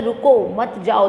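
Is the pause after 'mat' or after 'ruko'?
after ruko. The pause comes after 'ruko'.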